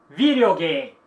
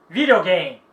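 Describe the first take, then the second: Both takes have the same delivery.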